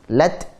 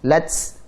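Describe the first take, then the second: First: It ends in a plain t with breath. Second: It ends in a hissing ts sound. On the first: The speaker calls it right. "Lat, jangan lats" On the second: The speaker calls it wrong. "Jangan lats. Ini punya sin ini"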